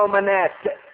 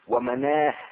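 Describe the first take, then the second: First: The word ends with a t sound. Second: The word ends with an h sound. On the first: This is how the Hafs reading pauses on the word. "قراءة حفص بالوقف على التاء" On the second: This is how some readers pause on the word. "بالوقف على الهاء بعضهم"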